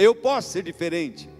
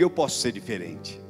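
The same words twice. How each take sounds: First: It is said louder. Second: It is said at normal loudness.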